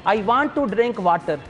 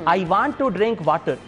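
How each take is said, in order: First: It is spoken with a Punjabi accent. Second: It is spoken with a Punjabi accent.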